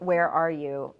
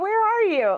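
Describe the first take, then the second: First: It sounds annoyed and demanding. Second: It sounds light and playful. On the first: The sender seems entitled and impatient. "my instinct might be like, ... who does she think she is?" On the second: The sender is just casually asking. "or haha, where are you?"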